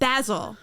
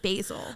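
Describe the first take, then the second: First: It is said the way the Scottish chef says it. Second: It is said in the speaker's own usual way. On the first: "Gordon Ramsay ... he's Scottish" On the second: "instead of basil"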